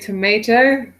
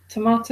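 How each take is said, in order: First: Tomato is said with an American pronunciation. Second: Tomato is said with a British pronunciation. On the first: The speaker calls it right. "The only proper way" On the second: The speaker calls it wrong. "you did it again"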